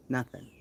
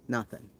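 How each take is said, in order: Both takes have the same delivery.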